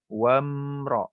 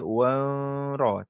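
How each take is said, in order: First: The 'm' is clear, with the lips fully closed. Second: The 'm' is weak, without full lip closure. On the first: The speaker calls it right. "Rapatkan kita punya bibir eh" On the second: The speaker calls it wrong. "tak boleh kita wamra, tak boleh"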